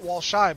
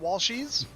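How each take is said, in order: First: The name ends in a plain "ee" sound. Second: The name ends in an "eez" sound. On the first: The speaker calls it wrong. "not Walshy" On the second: The speaker calls it right. "but Walshies"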